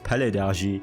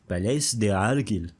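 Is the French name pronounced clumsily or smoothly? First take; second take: smoothly; clumsily. First: The French name comes out smooth and fluent. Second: The French name comes out mangled and clumsy. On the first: The speaker calls it right. "I nailed that pronunciation" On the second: The speaker calls it wrong. "I can't fucking pronounce that, I'm not French!"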